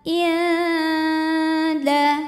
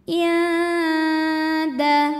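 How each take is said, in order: First: The first vowel is short; the nasal hum lasts. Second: The first vowel is short; the nasal hum lasts.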